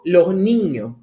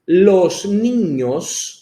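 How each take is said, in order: First: The s sounds are swallowed, aspirated. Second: The s sounds are clearly pronounced. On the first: "Eu engulo" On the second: "com as S muito demarcadas"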